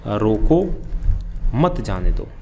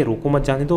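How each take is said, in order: First: "रोको" held apart, then "मत जाने दो" together; pause after रोको. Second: Said in the usual way. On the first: Shown as a demonstration. Teacher reading the second written version to students, pausing after "रोको". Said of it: "दूसरी बार लिखा जाता है". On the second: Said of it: "यहाँ डेस लगा के".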